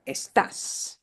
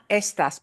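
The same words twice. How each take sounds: First: "estás" punched on the final TÁS; stress on last syllable. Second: "estas" stressed on the opening ES; stress on first syllable. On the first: Spanish teacher shows the accent mark, "estás" stressed on TÁS. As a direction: hit the end of "estás", es-TÁS. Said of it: "we have to punch that sound more". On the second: Spanish teacher shows the mistake, "estas" stressed on ES. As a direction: say "estas" with the weight up front, ES-tas. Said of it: "we have to punch that sound more. So not estas". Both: Shown as a demonstration.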